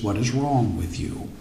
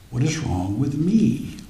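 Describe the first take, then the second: First: "What is wrong with you?" with wrong stressed and falling; low, quiet question, weight on "wrong". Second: "What is wrong with me?" with me stressed and falling; quiet, inward question, weight on "me". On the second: Preacher turns question on self. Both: Shown as a demonstration.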